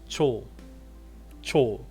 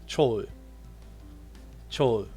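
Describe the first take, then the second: The two takes are said the same way.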